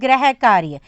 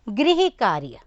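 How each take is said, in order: First: The first syllable has no 'ri' sound. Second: The first syllable has an 'ri' sound. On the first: The speaker calls it wrong. "अधिकतर लोग इसको बोलेंगे गृह कार्य" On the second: The speaker calls it right. "ग में री की मात्रा तो ये बन गया गृह"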